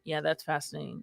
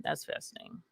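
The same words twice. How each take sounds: First: Said in the usual way. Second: Breathy whispered aside; whispering. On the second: Acted. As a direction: whisper it under your breath. Repeats phrase as a whisper.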